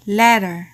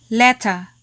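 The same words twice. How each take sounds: First: LETTER with a full final R; American sounded R. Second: LETTER with a crisp T and no final R; British silent R. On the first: Teacher asks learners to listen carefully, American R-ful "letter". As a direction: say letter the American way, R pronounced at the end. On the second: Teacher asks learners to listen carefully, British non-rhotic "letter". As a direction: say letter the British way, "LET-tuh". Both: Shown as a demonstration.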